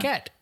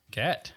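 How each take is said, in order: First: Put-on high, childlike "Cat."; toddler voice. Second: Said in the usual way. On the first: Imitating toddler's word.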